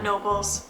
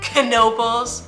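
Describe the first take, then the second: First: The K at the start is silent. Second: The K at the start is sounded. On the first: The speaker calls it wrong. "not Nobles" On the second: The speaker calls it right. "It looks like it might be a silent K, but it's not"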